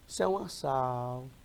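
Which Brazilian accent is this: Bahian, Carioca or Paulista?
Bahian. It is said in a slow, relaxed Bahian accent. "O baiano já é mais leve"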